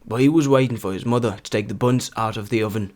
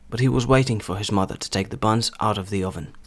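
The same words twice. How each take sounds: First: It is read in a Northern English accent. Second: It is read in a standard British accent. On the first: "третій варіант я хотів би максимально наблизити до вимови північно-англійських діалектів" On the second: "Перший буде стандартна британська вимова"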